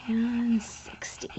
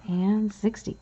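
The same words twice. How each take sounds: First: "And sixty" whispered slowly and breathless; whispered repeat. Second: Said in the usual way. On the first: Shown as a demonstration. Repeating the tally to herself, "And sixty" whispered.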